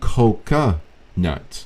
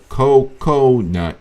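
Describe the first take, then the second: First: The middle syllable has a reduced 'uh' vowel. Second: The middle syllable has a full 'oh' vowel. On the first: The speaker calls it right. "You say C O C U, coca nut" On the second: The speaker calls it wrong. "you don't say cocoa nut"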